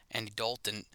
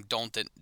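First: Said in the usual way. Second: "Dalton" slurred into DOHN-tin; slurred word. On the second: Real, not acted. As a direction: blur "Dalton", losing the L. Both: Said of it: "I'm slurring words".

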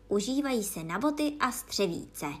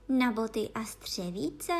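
First: Mildly solemn statement. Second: Slow puzzled question, rising at the end; astonished. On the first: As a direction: pronounce it with a touch of ceremony. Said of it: "odpověděl Gryfon velmi slavnostně". (mírně slavnostně) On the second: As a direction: echo it in wonder, drawn out. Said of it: "opakovala udiveným hlasem". (udiveným hlasem, tázavě) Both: A narrator's reading.

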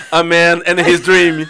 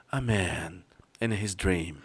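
First: Movie trailer voice. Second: Very slow, low and soft trailer voice; hushed epic trailer narrator; movie trailer voice. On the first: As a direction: do the epic trailer narrator. Imitando voz de trailer. (voz de narrador de trailer) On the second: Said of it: "Começava com". (voz grave de trailer de filme) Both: Retold or imitated.

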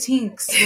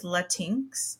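First: "Latinx" said louder as "TINKS"; repeated pronunciation. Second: Latinx said as "la-TINKS"; boyfriend's mangled "Latinx" with the stress on TINKS; mock-clueless "Latinx"; odd pronunciation. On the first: Retold or imitated. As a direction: boyfriend repeating "Latinx" more firmly. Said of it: "He's like". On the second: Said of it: "And he goes".

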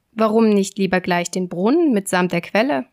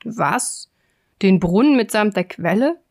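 First: Lightly voiced cocky tailor; mild show-off, lifting at the end; boastful question. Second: Taken-aback giant, lightly acted; incredulous giant, punching the repeated words; grumbled astonishment. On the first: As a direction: toss it out as a bragging offer. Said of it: "fragte der Prahlhans". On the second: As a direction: echo the boast in disbelief. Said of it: "brummte der Riese". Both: A narrator's reading.

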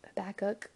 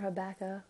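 First: Habakkuk with a final k sound; alternative pronunciation. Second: Habakkuk with the final k dropped; alternative pronunciation. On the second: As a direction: end Habakkuk on an open vowel, softly. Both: Shown as a demonstration. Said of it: "however you would like to say it".

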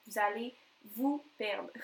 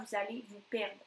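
First: "Vous allez", a pause, then "vous perdre"; emphatic repeat. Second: Said in the usual way. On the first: Real, not acted. Coach warning viewers about losing structure, emphatic with a pause. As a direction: break it before "vous perdre" to land the warning.

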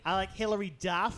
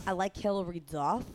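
First: Nasally mock Boston voice; nasal Boston accent. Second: Put-on failed copy of a nasal Boston accent; unconvincing Boston accent; attempted Boston accent. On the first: Shown as a demonstration. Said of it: "More nasally". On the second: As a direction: imitate a Boston accent, not quite getting it. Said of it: "No, that's not good".

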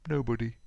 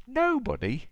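First: Mournful reply. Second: Very high, louder astonished gasp; gasped question. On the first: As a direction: answer with a touch of gloom. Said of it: "looked mournfully down at him and replied". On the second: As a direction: echo it as a shocked storybook question. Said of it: "gasped Mister Happy". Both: A narrator's reading.

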